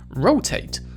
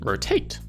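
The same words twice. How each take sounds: First: The stress is on the first syllable. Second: The stress is on the last syllable. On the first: "In America we see an emphasis on the first syllable" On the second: "in Britain the emphasis is often on the last syllable"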